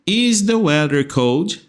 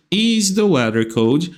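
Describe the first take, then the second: No difference in how they are said.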